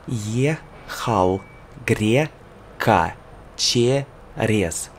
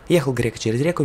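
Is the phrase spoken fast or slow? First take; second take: slow; fast. First: The phrase is spoken at a slow pace. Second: The phrase is spoken at a fast pace. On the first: "Slow, slow, slow" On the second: "And fast, fast, fast"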